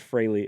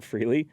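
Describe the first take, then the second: First: The first vowel sounds like 'ay'. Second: The first vowel sounds like 'ee'. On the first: The speaker calls it right. "his name was Fraley" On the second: The speaker calls it wrong. "and not Freely"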